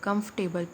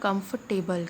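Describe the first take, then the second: First: The middle 'or' sound is left silent. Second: The middle 'or' sound is left silent.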